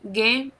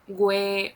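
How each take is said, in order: First: The g goes straight into the e sound. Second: A w sound follows the g before e. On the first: The speaker calls it right. "this is ge, gi" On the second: The speaker calls it wrong. "It's not gue"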